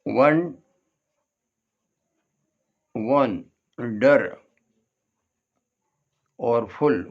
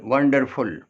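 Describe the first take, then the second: First: वन, then डर, then फुल, long gaps between; वंडर broken slowly, फुल on its own; split into syllables. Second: Said in the usual way. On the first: Shown as a demonstration. Teacher splitting wonderful for learners, syllable by syllable. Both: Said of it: "इसमें भी तीन syllable हैं".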